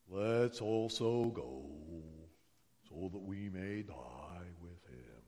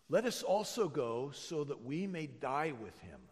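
First: It is said in a gloomy Eeyore voice. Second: It is said in a plain, ordinary voice.

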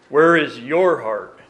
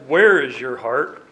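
First: The stress is on the word your. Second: The stress is on the word where.

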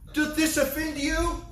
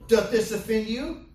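First: It sounds worried and apologetic. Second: It sounds challenging and unconcerned.

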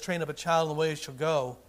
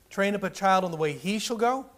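First: It is said with ordinary, even stress. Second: The word "he" is stressed.

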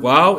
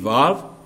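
First: The word begins with a W sound. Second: The word begins with a V sound. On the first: "I'm just sticking to what I heard when I went to seminary" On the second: "Some pronounce it with a V"

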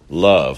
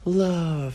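First: The word is said in a strong, manly voice. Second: The word is said in a soft, gentle voice. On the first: The speaker calls it right. "like manly love" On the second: The speaker calls it wrong. "it already sounds effeminate. It already sounds soft"

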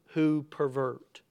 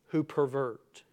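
Both takes have the same delivery.

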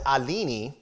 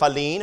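First: The name is said with a Brazilian pronunciation. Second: The name is said with an English pronunciation.

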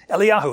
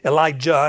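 First: The name is said with a Hebrew pronunciation. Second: The name is said with an English pronunciation. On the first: "is how you say it in Hebrew" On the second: "in our English kind of nastiness"

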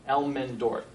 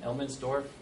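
First: The name is said without an S sound. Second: The name is said with an S sound. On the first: The speaker calls it right. "No S" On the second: The speaker calls it wrong. "I got an S in there somehow"

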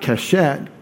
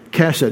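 First: The stress is on the second syllable. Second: The stress is on the first syllable. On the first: The speaker calls it wrong. "not keshet" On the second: The speaker calls it right. "That's a segalit"

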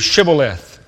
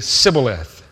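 First: The word begins with an sh sound. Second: The word begins with an s sound. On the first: This is the required password pronunciation. The speaker calls it right. "pronounce the word for me" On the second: This pronunciation gives the speaker away as an outsider. The speaker calls it wrong. "42,000 men mispronounced the word Shibboleth"

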